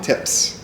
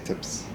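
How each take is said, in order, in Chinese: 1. 辅音发音硬朗而且清脆。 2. 辅音发音轻柔而且弱。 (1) "I would say" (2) "like you say, ... Like it's very soft"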